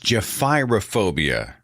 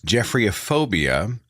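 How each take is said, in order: First: It begins with a sound like 'Jeff-ih-ro'. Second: It begins with a sound like 'Jeffrey'. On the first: The speaker calls it right. "G E P H Y R O phobia" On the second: The speaker calls it wrong. "I had mispronounced the term"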